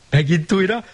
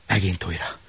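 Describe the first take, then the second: First: Sing-song. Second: Hushed. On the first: Varied refrain, higher. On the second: Varied refrain, quiet. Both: A narrator's reading.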